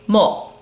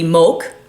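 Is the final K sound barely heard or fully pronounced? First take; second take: barely heard; fully pronounced. First: The final K sound is barely heard. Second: The final K sound is fully pronounced. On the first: The speaker calls it right. "we're gonna say mo ... that G and that K sound is there a little bit" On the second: The speaker calls it wrong. "If I said it in true English, it would be moke"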